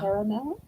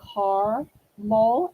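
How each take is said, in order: First: It is said with the usual local pronunciation. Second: It is said with a northern pronunciation. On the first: This is how the speaker's own region says it. "instead of" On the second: This is how people up north say it. "Just like they say caramel"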